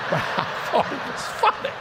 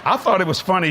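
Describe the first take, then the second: First: Breathless giggly aside; chuckling through it; laughing. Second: Said in the usual way. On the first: Real, not acted. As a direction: laugh the words out under your breath.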